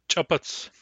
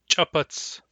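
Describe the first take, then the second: The two takes are said the same way.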